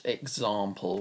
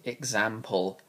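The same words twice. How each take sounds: First: Example with a long ah as in father; the other way of saying it. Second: Example with a short flat a as in cat; own way of saying it. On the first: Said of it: "not example". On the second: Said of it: "I say example, not example". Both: Shown as a demonstration.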